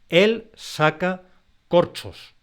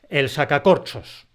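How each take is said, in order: First: Each word carries its own stress. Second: The whole phrase carries a single stress. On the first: Someone is pulling corks out of bottles. "Se pronuncia con un golpe de voz en cada palabra" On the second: It names a corkscrew. "Toda esa secuencia contiene un solo golpe de voz"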